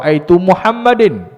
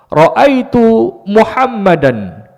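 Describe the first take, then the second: First: The name ends with an i-vowel plus n. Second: The name ends with an a-vowel plus n. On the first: The speaker calls it wrong. "Tak boleh baca" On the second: The speaker calls it right. "nak baca dengan baris fathah"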